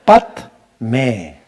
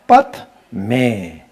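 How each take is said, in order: Both takes have the same delivery.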